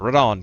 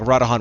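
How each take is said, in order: First: The last syllable sounds like 'dawn'. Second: The last syllable does not sound like 'dawn'. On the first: The speaker calls it right. "because it's like dawn" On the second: The speaker calls it wrong. "I keep on saying Radahan"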